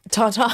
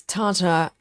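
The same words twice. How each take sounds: First: Tartar as TAR-TAH; own pronunciation. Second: Tartar as TAR-tuh; weak-ending pronunciation. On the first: Shown as a demonstration. Host switching back to own version, tartar as TAR-TAH. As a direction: open the end of tartar out to a full 'tah'. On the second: Retold or imitated. Host reading a viewer's message, tartar as TAR-tuh. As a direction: let the end of tartar shrink to 'tuh'. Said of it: "getting me saying tartar".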